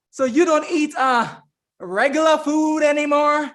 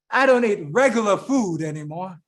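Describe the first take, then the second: First: Imitated Southern sister, pitched up in a question; Southern accent. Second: Lightly voiced man answering in a lower register; man's reply. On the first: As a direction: ask it high with a touch of Southern accent. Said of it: "she had that Southern accent". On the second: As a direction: answer the sister evenly, lightly in character. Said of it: "He said, uh".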